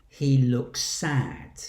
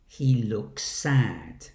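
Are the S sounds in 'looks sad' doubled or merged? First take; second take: merged; merged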